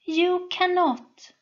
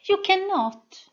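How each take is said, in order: First: High, slow smooth statement. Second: High, louder smooth repeat. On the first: Sol taunting the soldier, smooth and high. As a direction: glide it out, cool and certain. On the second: Sol repeating her taunt louder and higher. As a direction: press it home, smooth and high. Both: A narrator's reading. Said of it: "with a smooth voice".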